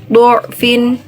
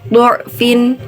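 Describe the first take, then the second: Both takes have the same delivery.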